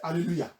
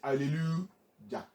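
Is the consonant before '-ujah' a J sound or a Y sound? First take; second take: Y sound; J sound. First: The consonant before the last vowel is a Y sound. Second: The consonant before the last vowel is a J sound. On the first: The name ends in Y-A-H. "But we say hallelujah. That means what end it is Y A H" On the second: The name would be spelled ending in J-A-H. "If J is what end uh, A H, we should have been calling it hallelujah"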